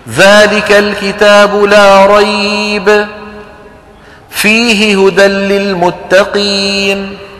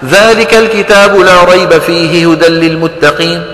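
First: There is a single pause within the verse. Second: The verse runs through without any pause. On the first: "معنى جميل وما فيني رده" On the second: "وإذا حب الواحد ما يوقف لا يوقف"

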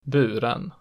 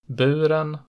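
First: Pitch falls on stressed vowel, then peaks again after. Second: Pitch rises to a single peak after the stressed vowel. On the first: "a double peak in accent 2" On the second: "it has a single pitch peak in accent 1"

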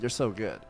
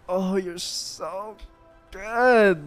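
First: The words are said short and quick. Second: The words are drawn out long.

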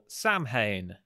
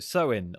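First: It is pronounced just as it is spelled. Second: It is pronounced quite unlike its spelling.

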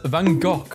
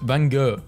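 First: The name is said the Dutch way. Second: The name is said the American way. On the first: "Dutch pronounce it as" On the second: "American saying Van Gogh is pronounced"

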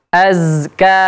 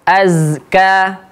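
Both takes have the same delivery.

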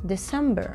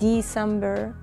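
First: The vowel after D is almost silent. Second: The vowel after D is fully pronounced. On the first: The speaker calls it right. "قلت December December" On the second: The speaker calls it wrong. "ما بقول December"

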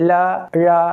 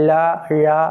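Both takes have the same delivery.

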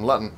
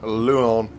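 First: The middle t is pronounced clearly. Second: The middle t is dropped for a catch. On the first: The speaker calls it right. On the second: The speaker calls it wrong.

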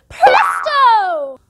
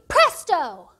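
First: It is said very loudly. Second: It is said fairly softly.

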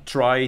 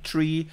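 First: The vowel sounds like 'eye'. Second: The vowel sounds like 'ee'. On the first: "dann wird die Hälfte der Leute da draußen sagen try" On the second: "die andere würde sagen tree"

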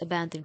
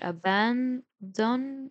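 First: It is pronounced the usual English way. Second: Each letter is sounded out the way it's spelled. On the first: "but say in normal English, it's abandon claim" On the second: "I say it like that so I can remember how to spell it"

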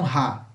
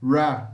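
First: The R sounds like an H sound. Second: The R is an English-style R sound. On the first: The speaker calls it wrong. "Se você falar ra, você está falando som de H" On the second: The speaker calls it right. "o R nós temos que pronunciar dessa forma"

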